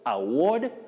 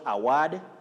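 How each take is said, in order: First: The stressed vowel is a long 'oh' sound. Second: The stressed vowel is not an 'oh' sound. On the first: The speaker calls it right. "they represent the long sound O" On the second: The speaker calls it wrong. "Common locally, but wrong"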